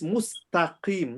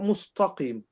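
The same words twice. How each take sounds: First: The t is light, with an empty mouth. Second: The t is heavy, with a full mouth. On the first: The speaker calls it right. "So it's mustaqim" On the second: The speaker calls it wrong. "not mustaqim"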